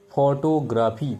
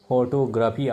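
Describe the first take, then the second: First: Teacher slowly pronouncing photography for students; slow model word. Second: Said in the usual way. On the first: Shown as a demonstration. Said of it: "যেমন". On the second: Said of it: "graph, P H Y C".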